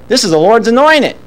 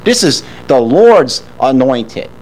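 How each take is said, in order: First: Mock David declaring "This is the Lord's anointed"; "anointed" lifted and dropped as a quoted protest; quoted with reverence. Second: Slow, heavy stress on "Lord's", falling at the end; "Lord's" stressed slowly and firmly. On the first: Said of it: "he's thinking". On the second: Shown as a demonstration. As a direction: lean hard on "Lord's" and let "anointed" drop. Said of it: "Look where his focus is".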